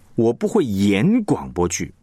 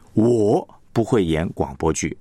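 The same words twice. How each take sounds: First: The stress falls on the word 演. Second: The stress falls on the word 我. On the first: The speaker can write radio dramas but not act them. "意思就是我只会写广播剧。我不会演，真的不会演。" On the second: Others can act radio dramas, but not the speaker. "别人会演，但是我不会。"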